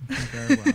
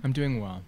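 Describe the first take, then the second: First: Soothing therapist voice, pitched up. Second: Said in the usual way. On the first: Acted. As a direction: answer like a calm counselor in session. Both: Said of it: "You just put on your therapist voice".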